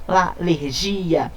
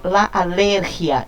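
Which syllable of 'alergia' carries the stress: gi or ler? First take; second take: gi; ler. First: The stress is on the syllable gi. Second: The stress is on the syllable ler. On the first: The speaker calls it wrong. "e não la alergia" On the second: The speaker calls it right. "eu digo la alergia"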